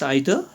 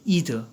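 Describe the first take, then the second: First: It is said with a British pronunciation. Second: It is said with an American pronunciation. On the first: "the British pronounce it as either" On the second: "the Americans would say either"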